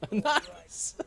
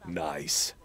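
First: Very high, rising nice; high squeaky nice. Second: Low, falling nice; low deadpan nice. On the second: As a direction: drop it down low and flat. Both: Pretend. Reacting to censor beep.

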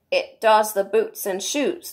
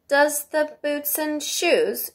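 First: Slow, weighty pronouncement; very solemn. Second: Slow, high-pitched puzzled echo; wondering. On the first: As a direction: state it slowly with great gravity. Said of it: "the Gryphon replied very solemnly". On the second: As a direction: repeat it in drawn-out wonder. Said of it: "she repeated in a wondering tone". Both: A narrator's reading.

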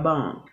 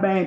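First: "bang" with an open ah, like "bong". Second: "bang" with the English vowel of "hang". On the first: Mother showing viewers the fix, "bang" said as "bong". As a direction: say "bang" so it sounds like "bahng". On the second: Mother showing her slip to viewers, "bang" like "hang". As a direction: say "bang" the wrong way, rhyming with "hang". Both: Shown as a demonstration. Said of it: "Not bang, but bang".

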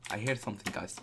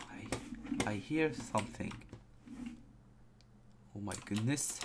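First: Said in the usual way. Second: Softer, half-whispered and tense; hushed. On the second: Real, not acted. Scared gamer hearing a creepy sound in the dark, hushed whisper. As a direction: hush it so nothing hears you.

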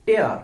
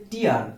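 First: টেয়ার said like English "tare", rhyming with bear; টেয়ার with an open "eh" vowel, like ripping paper; টেয়ার as in to tear apart, "tair"; tear as verb. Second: টিয়ার said like English "teer", rhyming with ear; টিয়ার with a long "ee" vowel, like a teardrop; টিয়ার as in tears from the eyes, "teer"; tear as noun. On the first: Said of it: "তখন আপনাকে উচ্চারণ করতে হবে". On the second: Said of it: "উচ্চারণ হবে টিয়ার". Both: Shown as a demonstration.

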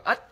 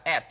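First: "at" as a curt Vietnamese "ớt"; Vietnamese-style mistake. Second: "at" with an open e-like vowel, mouth wide; open short A. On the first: Teacher mimics learners' mistake, "at" as short Vietnamese ớt. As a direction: say "at" with a short ơ and rising tone. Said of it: "theo cái tiếng Việt của chúng ta". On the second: Teacher shows correct short A, "at" with wide e-like vowel. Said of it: "âm short A chúng ta đọc là chữ E". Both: Shown as a demonstration.

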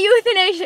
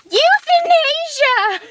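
First: Said in the usual way. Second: High, slow, drawn-out exclamation; gleeful announcement. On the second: Pretend. Revealing a favorite thing to a friend, gleefully drawn out. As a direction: sing the word out high and stretched.

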